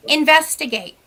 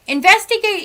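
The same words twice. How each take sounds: First: Said in the usual way. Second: Investigate said again, higher and insistent; stress on Investigate. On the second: Shown as a demonstration. Telling clients to check first, insistent repeat. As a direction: hit Investigate harder the second time. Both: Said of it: "I tell people all the time".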